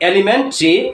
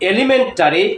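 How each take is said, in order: First: The ending is reduced to a single 'tree'. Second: The ending keeps a full vowel before 'ree'. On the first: The speaker calls it right. "উচ্চারণটা হবে ট্রি" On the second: The speaker calls it wrong. "টরি, টেরি কিংবা টারি না"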